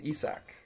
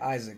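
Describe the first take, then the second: First: The name is said a different, less common way. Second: The name is said the common English way. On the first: The speaker calls it right. "His name is Isak" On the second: The speaker calls it wrong. "Sorry, I'm saying I'm saying Isaac"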